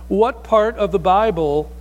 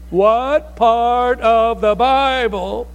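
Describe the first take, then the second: First: It is said at normal speed and volume. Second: It is said slower and louder than normal.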